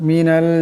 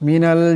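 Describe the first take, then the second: No difference in how they are said.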